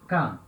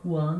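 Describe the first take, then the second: First: The k sound stands alone, with no w. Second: A w sound follows the k sound. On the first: The speaker calls it right. "Uma coisa só" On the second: The speaker calls it wrong. "Não se fala quan, não"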